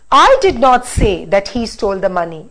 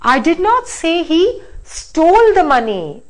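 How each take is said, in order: First: The stress falls on the word I. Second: The stress falls on the word stole. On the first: Somebody else said it. "I'm going to say the sentence now by stressing on I" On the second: The money was borrowed, not stolen. "Now let me stress on this"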